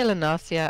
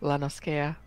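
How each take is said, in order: First: The C is pronounced as a soft S sound. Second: The C is pronounced as a hard K sound. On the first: This is how the other person says the name. "You say Lanasia" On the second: This is how the speaker says the name. "I pronounce it as lit as um Lanoskea... them not using a soft C"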